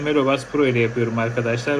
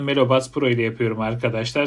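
First: Recorded outdoors with traffic noise in the background. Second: Recorded in a quiet room without background noise. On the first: "trafik ortamında" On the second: "Sessiz bir oda ortamındayım"

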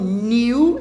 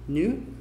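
First: The vowel glides clearly from 'ee' to 'oo'. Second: The vowel is in-between, with rounded lips. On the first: The speaker calls it wrong. "e também não é um new e news" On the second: The speaker calls it right. "É tipo new, com biquinho"

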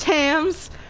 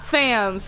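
First: The word begins with a plain 't' sound. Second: The word begins with a 'th' sound. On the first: The speaker calls it right. "it's Tams" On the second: The speaker calls it wrong. "It's not Thams"

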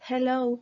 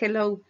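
First: The first sound is a soft breathy h. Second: The first sound is a harsh Spanish j. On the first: The speaker calls it right. "como una exhalación" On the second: The speaker calls it wrong. "no es una J"

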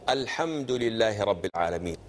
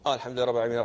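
First: It is recited slowly and thoughtfully. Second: It is recited hurriedly, rushing through.

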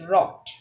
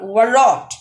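First: No W sound is heard at the start. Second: A W sound is heard at the start. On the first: The speaker calls it right. "The correct one is wrote" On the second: The speaker calls it wrong. "Not wrote. It's incorrect"

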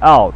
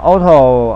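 First: It is said as one syllable ending in t. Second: It is said with two syllables, ending in a vowel. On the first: The speaker calls it right. "应该是out" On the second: The speaker calls it wrong. "讲auto 好像，但是其实是不正确的讲法啦"

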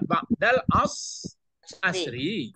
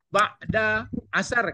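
First: The final word ends in a vowel sound. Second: The final word ends in a consonant sound. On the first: This is the grammatically proper form. The speaker calls it right. "Sabananya ba'dal asri" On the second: This is how people commonly say it. The speaker calls it wrong. "Ba'da asar katanya"

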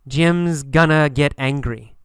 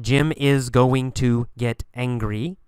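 First: Jim is and going to are reduced. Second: Every word is said in full. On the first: The speaker calls it right. "instead of going to, we say gonna" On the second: The speaker calls it wrong. "Not Jim is going to get angry"

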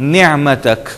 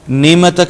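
First: The throaty ayn sound is clearly pronounced. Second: The throaty ayn sound is left out. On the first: The speaker calls it right. "نعمتک پھر عین کو انڈر لائن کریں گے" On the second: The speaker calls it wrong. "اور نعمتک نہیں ہوگا"

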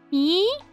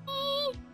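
First: The voice rises like a question. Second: The voice falls like a statement.

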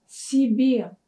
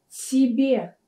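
The two takes are said the same way.

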